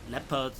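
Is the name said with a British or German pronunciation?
British. The name is said with a British pronunciation. The speaker calls it wrong. "fake British pronunciation"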